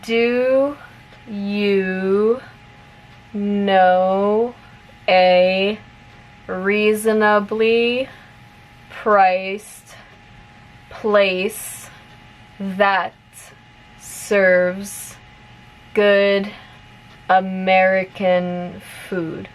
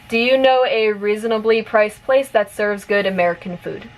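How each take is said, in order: First: The sentence is spoken slowly. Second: The sentence is spoken at normal, fast pace. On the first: "repeat it slowly first" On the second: "one more time at normal speed"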